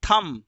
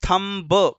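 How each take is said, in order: First: It ends in m, with no b sound. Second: It ends with an added b sound. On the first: The speaker calls it right. "ब pronounce नहीं करना है" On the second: The speaker calls it wrong. "Not थम ब"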